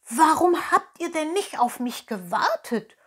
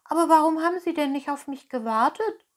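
First: Higher, louder breathless question; panting. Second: Higher, fast, let-down question; disappointed. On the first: Pinocchio arrives running and asks fox and cat, panting. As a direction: gasp it out after running. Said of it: "keuchte Pinocchio". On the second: Pinocchio asks innkeeper why friends left, disappointed. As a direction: ask it hurt and let down, voice jumping up. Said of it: "fragte Pinocchio enttäuscht". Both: Acted.

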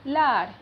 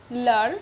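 First: "लाड़" with long aa; long vowel demo. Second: "लड़" with short a; short vowel demo. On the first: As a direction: stretch "लाड़". ("लाड़" में लंबा आ) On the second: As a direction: clip "लड़". ("लड़" छोटे अ के साथ) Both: Shown as a demonstration. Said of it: "अ एवं आ का उच्चारण".

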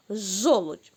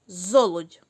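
First: Жолудь said with a clear zh at the start; corrected word. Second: Золудь said with a clear z instead of zh; wrong sound on purpose. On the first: Teacher gives the children the fixed word жолудь, with zh. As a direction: give the right жолудь with a clean zh. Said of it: "змінити на літеру «ж»". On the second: Teacher shows the children the wrong word Золудь, with z. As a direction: say Золудь with the z sound, as the mistake to catch. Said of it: "Правильно написано?". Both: Shown as a demonstration.

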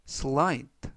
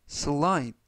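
The two takes are said the same way.

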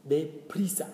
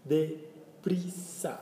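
First: Said in the usual way. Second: Very slow, stretched Deprisa; slow teaching. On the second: Shown as a demonstration. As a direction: draw out Deprisa slowly, syllable by syllable. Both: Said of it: "teacher models word".

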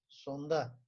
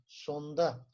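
Both takes have the same delivery.

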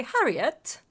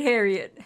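First: Harriet in a mock accent, open first vowel like "Hah"; hammy accented Harriet; put-on accent. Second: Said in the usual way. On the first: Shown as a demonstration. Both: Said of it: "an accent".

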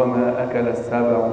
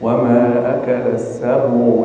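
First: السبع with the ba clipped, no damma; wrong sukun demo. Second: Slow السبع with a clear full damma on the ba; full damma demo. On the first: Retold or imitated. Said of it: "البعض يقول". (السبع بتسكين الباء خطأً) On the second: Shown as a demonstration. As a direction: round the ba of السبع fully and slowly. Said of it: "ضم الباء والعين جيدا". (السبع بضم الباء ضمًا كاملًا)

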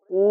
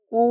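First: কু said heavy and full, from the throat; a thick, emphatic কু. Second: কু said thin and light, the wrong way; a light, thin কু to show the mistake. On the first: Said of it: "একটু মোটা করে". (মোটা করে কু) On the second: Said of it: "পাতলা করে হবে না". (পাতলা উচ্চারণে কু) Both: Shown as a demonstration.

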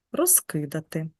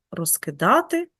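First: Розкидати with stress on а, роз-ки-ДА-ти; stress shift. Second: Розкидати with stress on и, роз-КИ-да-ти; stress shift. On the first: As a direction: say розкидати stressing the third syllable ДА. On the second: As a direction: say розкидати stressing the second syllable КИ. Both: Shown as a demonstration. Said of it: "і за допомогою зміни наголосу".

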